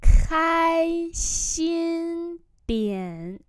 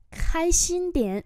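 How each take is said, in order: First: Very long, high held syllables; slow model reading. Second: Said in the usual way. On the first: Shown as a demonstration. Teacher modelling "cheer up a bit" for learners, extremely drawn out. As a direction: hold the first syllables high, then drop.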